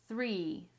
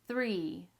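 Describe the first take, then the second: No difference in how they are said.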